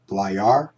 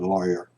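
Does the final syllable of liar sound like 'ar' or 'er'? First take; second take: ar; er. First: The last syllable has a full 'ar' vowel. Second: The last syllable has a weak 'er' vowel. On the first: "Some people say are" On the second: "or you can say er"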